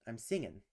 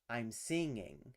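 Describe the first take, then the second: First: The word ends with a short 'in' sound. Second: The word ends with a full 'ing' sound. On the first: This is the casual, colloquial form. "in more colloquial pronunciation, you'll hear more often singin'" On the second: This is the careful, standard form. "in careful pronunciation, is always pronounced as ing"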